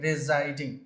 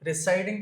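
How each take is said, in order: First: The middle consonant is a buzzing z sound. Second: The middle consonant is a hissing s sound. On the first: The speaker calls it right. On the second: The speaker calls it wrong. "రిసైడింగ్ కాదండి"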